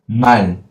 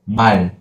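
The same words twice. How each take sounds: First: The word ends short, with a closed final. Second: The word ends short, with a closed final.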